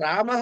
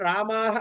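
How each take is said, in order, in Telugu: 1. చివరి 'h' కి ముందున్న అచ్చు హ్రస్వంగా ఉంది. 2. చివరి 'h' కి ముందున్న అచ్చు దీర్ఘంగా ఉంది.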